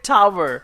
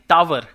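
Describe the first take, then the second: First: It is said with a native English accent. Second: It is said with an Indian English accent. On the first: This is how native speakers say it. The speaker calls it right. "They call it टावर" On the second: This is how local speakers say it. The speaker calls it wrong. "जिसको हम टावर कहते हैं"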